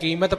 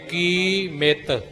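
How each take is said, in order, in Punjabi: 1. ਇਹ ਇੱਕ ਜੁੜੇ ਹੋਏ ਸ਼ਬਦ ਵਜੋਂ ਬੋਲਿਆ ਜਾਂਦਾ ਹੈ। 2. ਇਹ ਦੋ ਵੱਖਰੇ ਸ਼ਬਦਾਂ ਵਜੋਂ ਬੋਲਿਆ ਜਾਂਦਾ ਹੈ। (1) "ਕੀਮਤ ਪਾਠ ਨਾ" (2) "ਇਹ ਵੱਖਰਾ ਵੱਖਰਾ ਪਾਠ ਹੈ"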